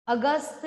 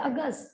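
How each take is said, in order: First: अगस्त with an added vowel after the final त; fully released final त. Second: अगस्त with स run quickly into a barely heard त; quick natural ending. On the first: Teacher showing how we don't say it, overpronounced अगस्त. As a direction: sound out the last त of अगस्त fully. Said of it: "नहीं बोलते, हम कहते हैं अगस्त". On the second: Teacher showing how we say it, natural अगस्त. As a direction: let the end of अगस्त drop away softly. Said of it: "हम कहते हैं अगस्त". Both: Shown as a demonstration.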